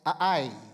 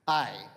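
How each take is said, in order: First: The name is said with two syllables. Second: The name is said with one syllable. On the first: This is the original language's pronunciation. "if you listen to a Hebrew audio Bible, it's 2 syllables" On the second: This is the everyday non-native pronunciation. "Let's just use the word I"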